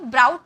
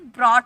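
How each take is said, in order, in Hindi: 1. स्वर 'cow' वाले 'ow' जैसा सुनाई देता है। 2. स्वर 'law' वाले 'aw' जैसा सुनाई देता है। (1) "ब्राउट नहीं बोला जाता" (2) "इसे ब्रॉट बोला जाता है"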